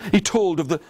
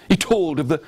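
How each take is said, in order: Both takes have the same delivery.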